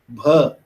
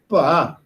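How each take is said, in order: First: It starts with a breathy aspirated voiced b. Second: It starts unaspirated and carries a tone. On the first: "in Hindi you have bha" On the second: "In Punjabi, we speak bha like this"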